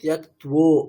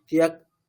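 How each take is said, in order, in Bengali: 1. 'kt' ধ্বনিগুচ্ছের পরে একটি হালকা 'v' ধ্বনি শোনা যায়। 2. শব্দটি কোনো 'v' ধ্বনি ছাড়াই শেষ হয়। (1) "আর বকারটা সঙ্গে নিলে" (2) "তিয়াক্ত বললে হবে না"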